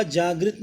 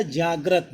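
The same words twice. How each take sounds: First: जागृत with "gri", jaa-grit; wrong vowel. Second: जागृत said jaa-grat, lower; correct vowel. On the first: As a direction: say जागृत with an "i" after gr. (गलत उच्चारण, जागृत में "गृ") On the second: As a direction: say जागृत with an "a" after gr. (सही उच्चारण, जागृत को "जाग्रत" बोलें) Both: Shown as a demonstration. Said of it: "जागृत नहीं होता".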